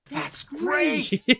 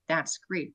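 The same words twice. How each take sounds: First: It is said imitating a film character's inflection. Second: It is said in an ordinary, plain voice. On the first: "the inflections on how to quote the dialogue" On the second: "we're not just saying that's great"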